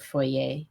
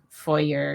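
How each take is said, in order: First: It is pronounced the French way. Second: It is pronounced the American way. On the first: The speaker calls it right. "because foyer is a French word" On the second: The speaker calls it wrong. "Americans saying foyer"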